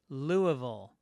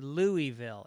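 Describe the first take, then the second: First: The name ends with a 'ful' sound like beautiful. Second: The name ends with a clear 'ville' sound. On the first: The speaker calls it right. "It's actually Louisville, like beautiful" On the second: The speaker calls it wrong. "You say Louisville"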